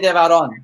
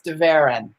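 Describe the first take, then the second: First: The name is said with a Spanish accent. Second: The name is said with an American accent.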